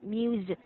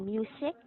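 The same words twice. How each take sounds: First: The middle consonant is a buzzing voiced Z. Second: The middle consonant is a hissing unvoiced S. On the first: The speaker calls it right. "you say music" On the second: The speaker calls it wrong. "You do not say music"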